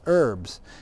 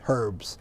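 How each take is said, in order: First: The word begins with a vowel, no H. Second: The word begins with an audible H sound. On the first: This is how it is said in America. "You don't pronounce the H if you're in America" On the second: This is how it is said in Britain. "If you're in Britain, you pronounce the H"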